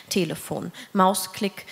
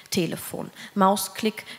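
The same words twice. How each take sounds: The two takes are said the same way.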